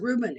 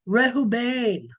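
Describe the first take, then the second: First: The name is said with English pronunciation. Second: The name is said with Hebrew pronunciation. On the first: This is how English speakers say it. "We pronounce it Reuben" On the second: This is how Hebrew speakers say it. "they pronounce it Rehoban"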